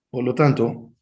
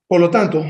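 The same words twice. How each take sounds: First: Said in the usual way. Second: Loud, punched opening; emphatic. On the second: Real, not acted. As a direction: hammer the words por lo tanto. Repeats phrase for emphasis. (decir por lo tanto con fuerza y más alto)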